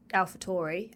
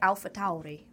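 First: The name is said with an English vowel, like Taurus. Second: The name is said with an Austrian-style vowel. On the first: "if you were saying it with an English accent, it's AlphaTauri, as in Taurus" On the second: "that's how they say it in their accent"

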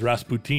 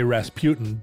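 First: The name is said the German way. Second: The name is said the usual American way.

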